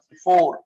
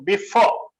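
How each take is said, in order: First: The final r sound is clearly pronounced. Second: The final r sound is left silent. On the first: "ये before आर भी बोलेंगे साथ" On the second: "सिर्फ इतना बोलेंगे इसको"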